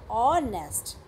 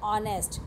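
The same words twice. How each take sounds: First: "honest" stretched into two separate beats, hon-est; syllable breakdown. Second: Said in the usual way. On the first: Shown as a demonstration. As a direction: split "honest" firmly after the first syllable. ("honest" को दो हिस्सों में खींचकर बोलें) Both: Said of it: "तो more syllables हैं".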